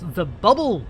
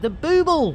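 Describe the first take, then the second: First: The first vowel is a short 'uh' sound. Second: The first vowel is a long 'oo' sound. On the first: The speaker calls it wrong. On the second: The speaker calls it right.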